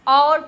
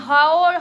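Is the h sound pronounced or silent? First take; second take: silent; pronounced. First: The word begins directly with the vowel. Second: An h sound is spoken at the start. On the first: The speaker calls it right. "उसको और पढ़ते हैं" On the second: The speaker calls it wrong. "हाओर नहीं पढ़ते"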